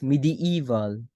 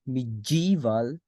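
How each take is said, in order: First: "medieval" in four clear syllables, mi-di-EE-val; careful pronunciation of medieval. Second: "medieval" with the middle run together into a j sound, like mid-JEE-val; mispronounced medieval. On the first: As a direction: separate the vowels in "medieval": mi-di-EE-val. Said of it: "you've heard it right. It's not medieval". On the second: You've heard it right. It's not medieval. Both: Shown as a demonstration.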